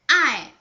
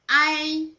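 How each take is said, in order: First: The pitch falls sharply from high. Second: The pitch stays high and level.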